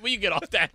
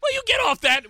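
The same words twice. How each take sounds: First: Said in the usual way. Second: High, loud exasperated cry; exasperated outburst. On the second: Real, not acted. Fed up with a cohost's teasing, a loud exasperated outburst. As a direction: burst out, fed up with the joke.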